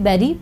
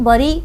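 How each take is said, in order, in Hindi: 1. पहला स्वर 'eh' जैसा बोला जाता है। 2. पहला स्वर 'uh' जैसा बोला जाता है। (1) "लेकिन यहाँ पर ये बेरी से भी बेरी बोला जाता है" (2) "आपने कई बार इसको बरी के आ, का प्रोनाउंसिएशन भी इसका सुना होगा"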